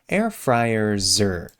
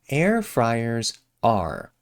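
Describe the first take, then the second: First: The word 'are' shrinks to a short 'er'. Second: The word 'are' is said with its full vowel.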